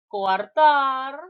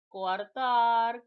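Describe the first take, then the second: First: Coartar said loudly, the final syllable tar pushed hard; teacher punches Coartar out loud, leaning on tar; stressed demo word. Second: Said in the usual way. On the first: Shown as a demonstration. Teacher drilling students on hiatus words, Coartar said loud with tar stressed.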